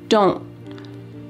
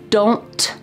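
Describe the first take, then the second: First: The final T is stopped with no air puff. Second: The final T is released with a puff of air. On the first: "Listen when I say this contraction" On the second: "with that puff of air coming out?"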